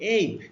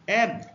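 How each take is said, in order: First: The vowel is a gliding 'ay' sound. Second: The vowel is the 'a' of 'cat'. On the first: "যখন এ B এর উচ্চারণ এই" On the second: "যখন এর উচ্চারণ এ হবে"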